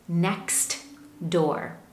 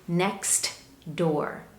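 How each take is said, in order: Both takes have the same delivery.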